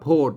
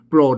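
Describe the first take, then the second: First: The word begins with a plain 'ph' sound. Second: The word begins with a 'pr' cluster. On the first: This is the northern reading of the letters. The speaker calls it right. "ตัวนี้ก็อ่านว่าโพด" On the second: This is the standard Thai reading of the letters. The speaker calls it wrong. "ไม่ใช่โปรด โปรดนั่นมันไทย"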